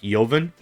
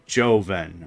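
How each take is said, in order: First: The first syllable has a short, different vowel. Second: The first syllable rhymes with 'go', a long vowel. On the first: The speaker calls it wrong. "I thought it was like" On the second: The speaker calls it right. "it says in parentheses J O E dash"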